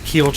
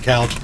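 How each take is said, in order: First: The vowel has a strong local accent. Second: The vowel has a standard pronunciation. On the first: This is how the people around him say it. "I don't say keelch" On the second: This is how he says it himself. "I say couch"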